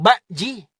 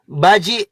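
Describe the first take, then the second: First: Bakji with a clear glottal stop before the j, "bak-ji"; Makassar word bakji. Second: Baji said with a smooth "ba-ji", no stop before the j; Makassar word baji. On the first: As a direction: cut the word Bakji with a sharp catch after bak. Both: Shown as a demonstration. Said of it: "antara baji dan bakji itu beda".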